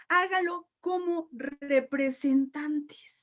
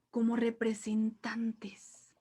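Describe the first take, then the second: First: "Hágalo como representantes" dragged out very slowly; slow emphasis. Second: "como representantes" whispered in awe; awed whisper. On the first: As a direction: stretch every word of "Hágalo como representantes". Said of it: "repeats slowly to stress". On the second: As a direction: breathe "como representantes" in wonder. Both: Shown as a demonstration.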